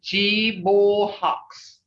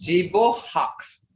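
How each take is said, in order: First: "Jibohawks" stretched very slowly, CHEE-bol-hawks; slower repeat. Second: "Jibohawks" slow, as CHEE-bol-hawks; model pronunciation. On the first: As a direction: drag every syllable of "Jibohawks". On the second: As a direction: spell out "Jibohawks" slowly with the mouth. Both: Shown as a demonstration. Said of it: "See that?".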